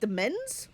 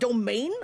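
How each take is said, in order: First: The word ends with a short 'mens' sound. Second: The word ends with a long 'main' sound. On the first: The speaker calls it wrong. "I don't think I know what that word is" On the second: The speaker calls it right. "it's actually pronounced domain?"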